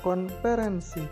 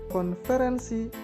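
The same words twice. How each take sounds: First: The middle consonant is a p sound. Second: The middle consonant is an f sound.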